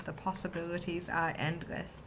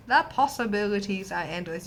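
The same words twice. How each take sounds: First: Said in the usual way. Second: Louder, emphatic proclamation; excited. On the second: Shown as a demonstration.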